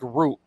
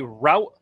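First: The vowel sounds like the one in boot. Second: The vowel sounds like the one in out.

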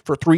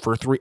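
First: It is said in a put-on funny voice. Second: It is said in the speaker's normal voice. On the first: The speaker calls it right. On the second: The speaker calls it wrong.

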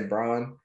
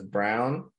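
First: The name does not sound like 'brown'. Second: The name sounds like the word 'brown'. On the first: This is the speaker's own way of saying it. "So I say Braun" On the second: Others have been heard saying it this way. "I've also heard his name pronounced as Brown"

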